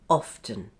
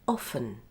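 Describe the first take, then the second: First: The T sound is clearly pronounced. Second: The T sound is not pronounced.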